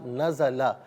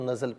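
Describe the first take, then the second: First: The word ends with a final a vowel. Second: The word ends on a bare l consonant. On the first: The reading continues without a stop. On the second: The reader stops at this word.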